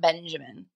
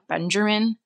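First: The name is said without an R sound. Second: The name is said with an added R sound. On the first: The speaker calls it right. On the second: The speaker calls it wrong.

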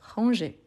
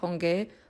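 First: The consonant is a soft j sound. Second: The consonant is a hard g sound. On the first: The speaker calls it right. "Donc je dis ranger, ranger" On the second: The speaker calls it wrong. "pour ne pas dire ranger, ranger"

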